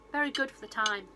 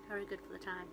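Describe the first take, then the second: First: Said in the usual way. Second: Softer, lower repeat; quiet aside. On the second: Shown as a demonstration. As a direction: mutter it again under breath.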